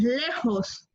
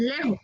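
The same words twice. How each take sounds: First: "lejos" with a clear final s; careful "lejos" with a held hiss at the end; correct lejos. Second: "lejos" as "lejo", no final s; "lejos" ending on an open o; mispronounced lejos. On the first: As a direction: model "lejos", sounding the s. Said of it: "es lejos". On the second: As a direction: show "lejos" with the s dropped. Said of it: "no es lejos". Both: Shown as a demonstration.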